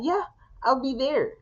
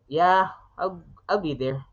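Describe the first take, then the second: First: It sounds warm and genuinely happy. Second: It sounds flat and sarcastic. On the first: The speaker truly wants to be there. "subtext C is a genuine one" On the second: The speaker does not want to go but is made to. "if it's gonna be sarcastic"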